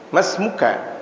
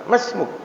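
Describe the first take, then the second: First: The final vowel is pronounced at the end. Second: The final vowel is dropped at the end. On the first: The speaker calls it wrong. "kalau baca kitab dibaca semuanya" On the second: The speaker calls it right.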